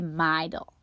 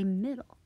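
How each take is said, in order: First: The first vowel is long, like 'eye'. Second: The first vowel is short, like 'ih'. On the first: The speaker calls it wrong. "it's an open syllable. This would say middle" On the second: The speaker calls it right. "I want it to say middle"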